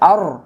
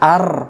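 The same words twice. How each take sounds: First: The r is heavy, with rounded lips. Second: The r is light, with unrounded lips. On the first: The speaker calls it right. "আর মুখটা গোল হবে" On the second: The speaker calls it wrong. "তাহলে এখানে উচ্চারণটা ভুল হয়ে যাবে"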